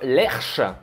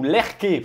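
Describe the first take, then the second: First: The consonant after the r is a sh sound. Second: The consonant after the r is a k sound. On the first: The speaker calls it wrong. "j'ai dit Lerche plusieurs fois en vidéo" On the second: The speaker calls it right. "il faut que ça se prononce Lerke"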